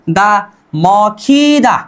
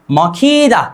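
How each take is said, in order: First: दा added slowly onto मौखीदा, each syllable drawn out; slow syllable build-up. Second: Said in the usual way. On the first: Shown as a demonstration. Teacher to students, slowly joining दा onto मौखीदा. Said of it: "द plus आ क्या हो गया". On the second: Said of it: "क्या?".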